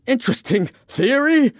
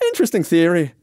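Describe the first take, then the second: First: Very high incredulous shriek; outraged shriek. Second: Higher, light character voice; Irishman, unruffled. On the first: Francis throws the Irishman's words back, shrieking. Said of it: "Francis shrieked". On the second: Irishman replies to Francis's accusation, unruffled. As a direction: toss it off, unbothered. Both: Acted.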